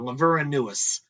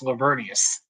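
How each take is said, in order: First: The name is sounded out exactly as spelled. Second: The name is said in its usual spoken form. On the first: It helps to remember the spelling. The speaker calls it wrong. "I always pronounce it out loud, Laveranuus" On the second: This is how the name is actually pronounced. The speaker calls it right. "But it's uh, pronounced Lavernius"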